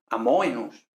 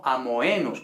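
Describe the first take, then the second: First: "amoenus" as a-MO-e-nus, stressed on the o; stress on first element. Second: "amoenus" as a-mo-E-nus, stressed on the e; common wrong stress. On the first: Teacher corrects the mistake, stressing MO. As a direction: hit MO in "amoenus" and glide into e. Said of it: "sino amoenus". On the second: Teacher quotes the common mistake, a-mo-E-nus. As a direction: say "amoenus" slowly, stress landing on E. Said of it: "como se suele pronunciar por ahí". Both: Shown as a demonstration.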